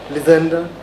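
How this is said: The name is said in the British way. "Even in U K they say it"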